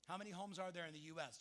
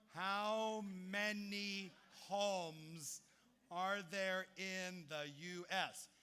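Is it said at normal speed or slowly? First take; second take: normal speed; slowly. First: It is said at a normal pace. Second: It is said slowly and deliberately.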